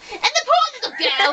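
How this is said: It is read in a put-on storytelling voice. The speaker calls it right.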